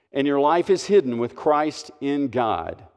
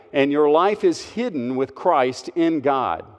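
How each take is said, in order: No difference in how they are said.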